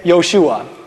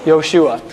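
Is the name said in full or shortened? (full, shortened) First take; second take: shortened; shortened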